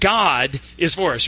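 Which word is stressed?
god. The stress is on the word God. It is God, and no one else, who is on our side. "we're going to emphasize each word. The first time"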